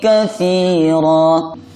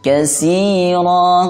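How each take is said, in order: First: The middle consonant is a th sound. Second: The middle consonant is a plain s sound. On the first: The speaker calls it right. "Hati-hati huruf ta-nya" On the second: The speaker calls it wrong. "jangan dibaca sin"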